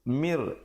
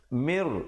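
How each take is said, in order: First: The word ends with an r sound. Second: The same.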